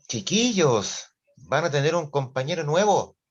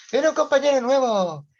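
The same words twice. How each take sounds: First: Teacher's announcement. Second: Much higher and louder, sing it out eagerly; excited announcement. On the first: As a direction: stretch it out to grab the kids' attention. Teacher announces a new classmate. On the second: Teacher hypes a new classmate to the other class, a bright high announcement. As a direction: tease the class with a juicy piece of news. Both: Retold or imitated.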